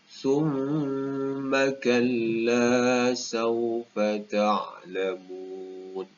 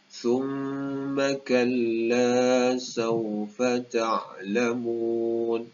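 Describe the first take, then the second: The two takes are said the same way.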